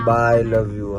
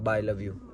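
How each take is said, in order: First: It is said in a warm, loving tone. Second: It is said in a curt, offhand tone. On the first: The speaker calls it right. "પ્રેમથી બોલો" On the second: The speaker calls it wrong. "એવું કેવી રીતે બોલી શકો તમે?"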